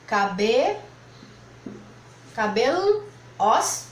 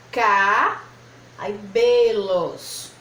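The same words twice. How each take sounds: First: "cabelo, os" broken as cabel, pause, os; wrong syllable split. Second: Loud, long "Ca-", pause, then drawn-out "belos"; split after first syllable. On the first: Teacher showing how not to separate cabelos, "os" split off after the L. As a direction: hold "Caber" as ca-be, then break "os" off alone. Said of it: "Não é assim que se separa cabelos". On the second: Teacher showing another way to separate, long "Ca-", then slow "belos". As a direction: break the word after "Ca-", stretching "belos". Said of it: "eu também poderia separar dessa maneira".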